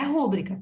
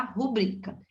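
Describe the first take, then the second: First: "rúbrica" stressed on the first syllable RÚ. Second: "Rubrica" stressed on the middle syllable BRI. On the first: Teacher rejecting the common mistake, "rúbrica" stressed on first syllable RÚ. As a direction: hit RÚ and let the rest of "rúbrica" drop. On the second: Teacher correcting the mistake for students, "Rubrica" stressed on middle syllable BRI. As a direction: move the accent onto BRI in "Rubrica". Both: Shown as a demonstration. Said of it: "Não é rúbrica".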